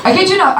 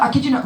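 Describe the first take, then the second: First: Laughing insistence. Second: Said in the usual way. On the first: Real, not acted. Comedian swearing to the crowd it's true, laughing.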